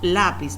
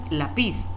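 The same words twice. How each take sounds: First: The stress is on the first syllable. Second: The stress is on the last syllable. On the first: The speaker calls it right. "Siempre decimos lápiz" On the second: The speaker calls it wrong. "no decimos lápiz"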